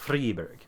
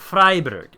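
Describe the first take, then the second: First: The E sound is clearly pronounced. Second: The E sound is left silent. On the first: The speaker calls it wrong. "instead of" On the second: The speaker calls it right. "the E is not usually pronounced"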